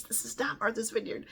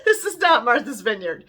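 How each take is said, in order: First: Hushed, secretive whisper; whispered aside. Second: Said in the usual way. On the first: Retold or imitated. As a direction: breathe it to your neighbour so nobody hears. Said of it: "I said".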